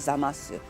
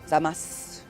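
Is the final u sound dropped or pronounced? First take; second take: pronounced; dropped. First: The final vowel is clearly pronounced after the s. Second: The final vowel is dropped after the s. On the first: "You could also say" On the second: "when you're just talking"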